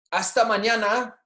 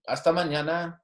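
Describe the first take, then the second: First: Hasta mañana raised high; bright high model. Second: Said in the usual way. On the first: Shown as a demonstration. Teacher to class, high bright hasta mañana. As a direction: lift it up for the class. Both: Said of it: "saying these with me".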